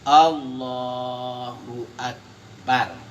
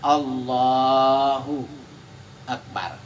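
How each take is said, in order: First: The two words run together without pause. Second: There is a short pause without a breath. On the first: "tidak ada berhenti" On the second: "itu kan berhenti sejenak"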